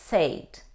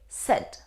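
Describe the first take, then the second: First: The vowel sounds like the one in made. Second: The vowel does not sound like made. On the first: The speaker calls it wrong. "Though we see the combination A and I, we don't say said" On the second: The speaker calls it right. "We say said"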